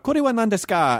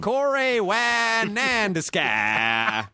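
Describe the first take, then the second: First: It is said with a confident Japanese-like accent. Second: It is said with a heavy Texan accent.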